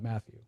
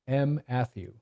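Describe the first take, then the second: First: The name is said smoothly as one word. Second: The name breaks after its first letter. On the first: The speaker calls it right. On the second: The speaker calls it wrong.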